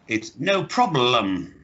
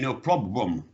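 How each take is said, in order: First: The L sound in problem is clearly pronounced. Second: The L sound in problem is weak or unclear. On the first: The speaker calls it right. "So, it's no problem" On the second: The speaker calls it wrong. "No, you're saying no problem"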